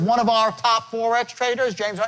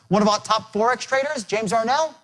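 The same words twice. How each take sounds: First: The small words are said separately, not run together. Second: The small words are run together before the stressed words. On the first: The speaker calls it wrong. "So it's not" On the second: The speaker calls it right. "I want you to contract these words together"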